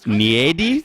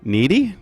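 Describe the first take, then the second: First: It does not sound like the English word needy. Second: It sounds like the English word needy. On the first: The speaker calls it right. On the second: The speaker calls it wrong.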